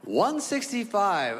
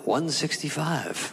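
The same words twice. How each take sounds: First: High, drawn-out incredulous echo; aghast, stretched-out exclamation; shocked disbelief. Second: Drawn-out weight readout; measured, deliberate pronouncement; slow announced verdict. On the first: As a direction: repeat it slowly, pitched up in disbelief. Shocked repeat of the true weight. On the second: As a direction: read the number out slowly and deliberately. Doctor reads out true weight. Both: Acted.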